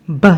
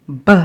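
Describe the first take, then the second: First: Said in the usual way. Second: "b" said as the bare b sound, not the letter name bee; isolated consonant sound. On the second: Shown as a demonstration. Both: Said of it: "as in bat".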